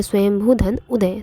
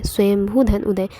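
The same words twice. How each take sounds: First: Said in the usual way. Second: स्वयंभू धन उदय said slower, each part set apart, धन stressed; slow the split down so students can follow, leaning on धन; slow careful repeat. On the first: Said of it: "teacher states the split". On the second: Shown as a demonstration. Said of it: "teacher repeats the split slowly". (धीमे और साफ़, धन पर ज़ोर देकर)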